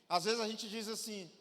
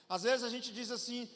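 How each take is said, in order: No difference in how they are said.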